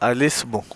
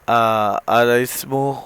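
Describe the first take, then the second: First: 'Al' and 'ismu' are joined into one word. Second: 'Al' and 'ismu' are said as separate words.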